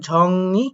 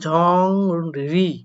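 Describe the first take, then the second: First: The second syllable starts with an n sound. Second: The second syllable starts with an r sound. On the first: The speaker calls it right. "রিউলটা হয়ে যাবে নিউন" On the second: The speaker calls it wrong. "এখানে আপনারা উচ্চারণ করবেন ঝং রি"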